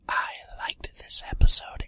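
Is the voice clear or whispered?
whispered. The voice is soft, breathy and whispery. "Let me do this in my ASMR voice"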